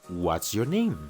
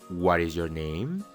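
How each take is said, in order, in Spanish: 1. La palabra 'is' se reduce a una s final. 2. La palabra 'is' se dice como una sílaba completa. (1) "mejor di" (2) "En vez de decir"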